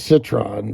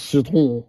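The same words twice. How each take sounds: First: The name is said with an English pronunciation. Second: The name is said with a French pronunciation. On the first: "We call it a citron" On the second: "but in French it's just citron"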